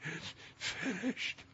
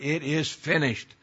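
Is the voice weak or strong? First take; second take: weak; strong. First: It is said in a weak, sickly, faint voice. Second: It is said as a strong, victorious cry.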